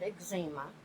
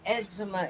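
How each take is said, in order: First: The word has its older pronunciation. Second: The word has its modern-day pronunciation. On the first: This is how it was said back then. "back then we called it eczema" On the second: This is how it is said today. "Eczema is a modern day pronunciation of it"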